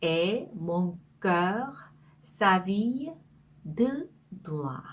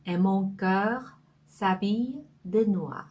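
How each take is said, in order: First: Each chunk of the line said very slowly with pauses; slow phrase by phrase. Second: The whole line "Et mon cœur s'habille de noir." read in one slow connected flow; slow full reading. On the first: Teacher reading the French line to students, slow and chunked. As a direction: break the sentence into slow pieces for learners. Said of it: "그 다음에". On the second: Teacher reading the full French sentence aloud, slow and whole. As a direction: read it through slowly in one breath. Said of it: "자, 이 문장은요". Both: Shown as a demonstration.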